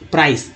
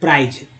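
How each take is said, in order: First: The word ends with an s sound. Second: The word ends with a z sound. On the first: The speaker calls it right. "तो ये प्राइस है, ना कि प्राइज।" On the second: The speaker calls it wrong. "कुछ लोग इसे प्राइज बोलते हैं"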